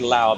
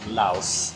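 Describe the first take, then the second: First: The word ends without an s sound. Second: The word ends with an s sound. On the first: It refers to the people or the language. The speaker calls it wrong. "You don't say Lao because that's for people" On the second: It refers to the country. The speaker calls it right. "it's actually Laos. You pronounce the S"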